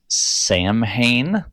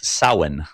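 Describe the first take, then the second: First: It is said with an anglicized, spelling-based pronunciation. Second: It is said with the Irish pronunciation. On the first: The speaker calls it wrong. "everybody always says is Samhain, but it's not" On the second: The speaker calls it right. "Because it's an Irish word"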